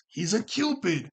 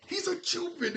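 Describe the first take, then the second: First: "He's a Cupid." slow and a bit louder, leaning on "Cupid"; slow, emphatic claim. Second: "He's a Cupid." jumped way up in pitch on "a"; squeaky high repeat. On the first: Vlogger insisting to viewers that Q is a Cupid, slow and firm. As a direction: land "Cupid" slowly and firmly. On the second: Vlogger repeating his Cupid theory to viewers in a high squeak. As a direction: squeak it high as a playful echo. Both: Shown as a demonstration. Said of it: "I'm telling you".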